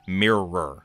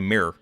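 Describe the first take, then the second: First: Two separate R sounds are clearly pronounced. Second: The R sounds merge into one R. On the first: "instead of mirror" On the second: "It just kind of all rolls into one R"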